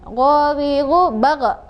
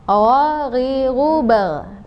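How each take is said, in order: First: The consonant with sukun bounces with an echo. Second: The consonant with sukun stops without a bounce. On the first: The speaker calls it wrong. "memantul ketika disukunkan" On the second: The speaker calls it right. "Tadi enaknya gitu"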